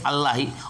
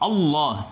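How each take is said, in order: First: The double L is said light and thin. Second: The double L is said heavy and thick. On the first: The speaker calls it wrong. "enggak boleh" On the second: The speaker calls it right. "ditafkhim artinya ditebalkan"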